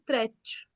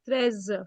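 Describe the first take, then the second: First: The word ends with a hissing s-like sound. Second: The word ends with a buzzing z sound. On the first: The speaker calls it wrong. "You are saying trech" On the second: The speaker calls it right. "It is z"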